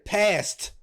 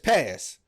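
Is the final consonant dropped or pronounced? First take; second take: pronounced; dropped. First: The final t sound is pronounced. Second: The final t sound is dropped. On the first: "instead of saying past" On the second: "it's just pass"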